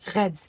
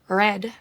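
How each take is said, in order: First: It is said with a soft French throat R. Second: It is said with a plain English R.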